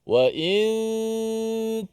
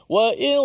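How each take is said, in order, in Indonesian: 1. Bunyi n tersembunyi, hanya terdengar sebagai bunyi sengau. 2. Bunyi n diucapkan penuh dengan ujung lidah. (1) "Wa in di hujung bunyinya, hujung lidah kita ta" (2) "dia tak boleh kita sebut wa in. Ha, lain macam bunyi tu"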